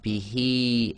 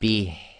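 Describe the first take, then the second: First: The word ends with a final vowel sound. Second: The word ends on a bare consonant sound. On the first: "we've got bihi at the end" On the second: "we just read the ha as if it's sakin"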